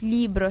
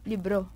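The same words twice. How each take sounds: First: The stress is on the first syllable. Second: The stress is on the second syllable. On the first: This is the Spanish pronunciation. "In Spanish, libro siya" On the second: This is the Filipino pronunciation. "Na napupunta yung accent sa second syllable"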